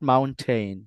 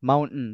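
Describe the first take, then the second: First: The t is clearly and fully pronounced. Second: The t is cut off with a glottal stop. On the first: The speaker calls it wrong. "Not মাউন্টেন" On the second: The speaker calls it right. "মাউন্টেন not"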